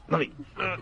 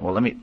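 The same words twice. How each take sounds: First: High, much softer strained try; hushed mock effort to cry; mock straining. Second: Said in the usual way. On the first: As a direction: squeeze the words out like forcing a tear. Pretending to force a tear.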